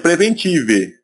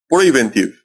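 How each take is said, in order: First: It is pronounced with Portuguese-style sounds. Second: It is pronounced with English-style sounds. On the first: The speaker calls it wrong. "Se fosse aportuguesar a palavra em inglês, seria preventive, mas não é assim que se fala" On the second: The speaker calls it right. "porque a pronúncia ela muda. Então seria preventive"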